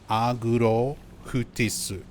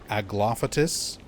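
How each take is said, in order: First: It is said with Japanese R and H sounds. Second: It is said with English L and F sounds. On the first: "no real F sound in Japanese... no L sound" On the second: "instead of Aglaophatus"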